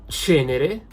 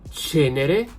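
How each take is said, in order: The two takes are said the same way.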